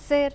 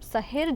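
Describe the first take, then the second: First: The word is said without an h sound. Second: The word is said with an h sound. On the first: The speaker calls it wrong. "શેર શેર શેર એવું બોલીએ છીએ. નહીં" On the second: The speaker calls it right. "હનું ઉચ્ચારણ થતું હોય"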